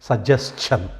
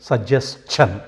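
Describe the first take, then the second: Both takes have the same delivery.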